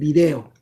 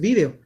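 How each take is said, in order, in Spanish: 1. Se dice como lo dice Latinoamérica. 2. Se dice como lo dice España. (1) "En México y en toda Latinoamérica, pues hablamos español y es video" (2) "si están en Europa, hablan castellano, en, en España, por lo tanto, pues es video"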